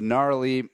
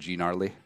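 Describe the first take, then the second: First: The word starts without a hard G sound. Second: The word starts with a hard G sound. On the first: The speaker calls it right. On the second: The speaker calls it wrong.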